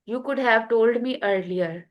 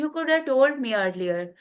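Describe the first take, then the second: First: 'Could have' is said in full, both words clear. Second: 'Could have' is run together into one reduced word.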